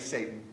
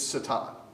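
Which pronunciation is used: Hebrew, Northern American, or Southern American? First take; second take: Northern American; Hebrew. First: It is said with a plain Northern American pronunciation. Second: It is said with a Hebrew pronunciation. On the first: It is the everyday colloquial form. The speaker calls it right. "the colloquial um, Yankee edition" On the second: The speaker is trying to sound learned. The speaker calls it wrong. "In Hebrew, if you want to sound fancy"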